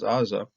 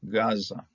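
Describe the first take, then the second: First: The word begins with a vowel sound. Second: The word begins with a G sound. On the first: The speaker calls it wrong. "if we didn't know anything about the Gao, we'd be pronouncing this thing as Aza" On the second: The speaker calls it right. "This is a G"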